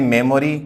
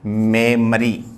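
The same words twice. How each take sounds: First: मेमोरी with a full 'o': 'me-mo-ri'; common Indian pronunciation. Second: मेमरी with weak middle vowel, 'mem-uh-ree'; correct pronunciation. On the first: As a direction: say मेमोरी in three full syllables. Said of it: "अब अपन बोलते हैं मेमोरी". (आम बोलचाल वाला मेमोरी, 'मो' साफ़) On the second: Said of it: "लेकिन होता सही क्या है?". (सही मेमरी, 'मो' की जगह हल्का 'म') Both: Shown as a demonstration.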